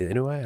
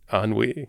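First: The word is said as an uncertain misreading. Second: The word is said in its standard French-style form. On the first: The speaker calls it wrong. "is it inui? Inui? How do you say that?" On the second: The speaker calls it right. "Wasn't even close"

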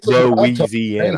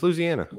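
First: The word is said with more syllables. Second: The word is said with fewer syllables. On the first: The speaker calls it wrong. "If the way you're saying it creates unnecessary syllables, you're saying it wrong" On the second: The speaker calls it right. "but it's Louisiana"

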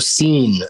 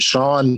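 First: The name is said like seen. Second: The name is said like shawn. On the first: The speaker calls it wrong. "I would just go, oh, you know, Scene" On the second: The speaker calls it right. "it wasn't Sean to me"

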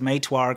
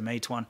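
First: It ends in a northern Chinese r sound. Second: It ends in a standard n sound.

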